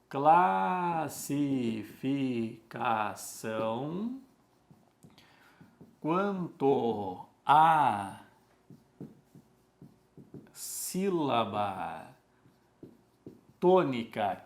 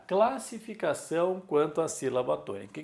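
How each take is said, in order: First: Very slow, syllable by syllable with long pauses; slow dictation. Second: Said in the usual way. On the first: Shown as a demonstration. Teacher writing the heading for the class, slow dictation. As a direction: stretch each word as if writing it out.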